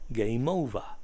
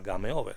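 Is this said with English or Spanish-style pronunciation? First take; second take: English; Spanish. First: It is said with English vowels and sounds. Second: It is said with Spanish-style vowels and sounds. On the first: The speaker calls it right. "se pronunciaba game over" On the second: The speaker calls it wrong. "no se pronunciaba game over"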